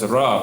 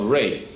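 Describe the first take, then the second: First: The name ends with an ah vowel. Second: The name ends with an eh vowel. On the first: The speaker calls it wrong. "mispronounced as Ra by the Greeks" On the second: The speaker calls it right. "the children of Re"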